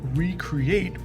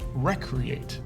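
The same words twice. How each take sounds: First: It begins with a long 'ree' sound. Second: It begins with a short 'rec' sound. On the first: To create something again. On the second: To have fun and play.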